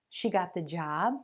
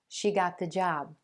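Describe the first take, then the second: First: The pitch rises at the end. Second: The pitch falls at the end. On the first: It is a question. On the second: It is a statement of fact.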